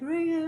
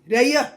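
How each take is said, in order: First: It sounds affectionate, with a soft R. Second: It sounds angry, with a hard R.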